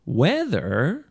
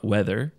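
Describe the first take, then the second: First: The pitch goes up and then down. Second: The pitch stays level without rising and falling. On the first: The speaker calls it right. "there is a kind of up and down intonation ... that intonation" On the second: The speaker calls it wrong. "not weather"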